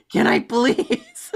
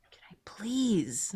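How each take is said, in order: First: High, loud, slow laughing plea; laughing mock plea. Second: Whispered plea. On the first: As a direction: beg through laughter, hammed-up. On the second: Pretend. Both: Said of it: "You're doing it".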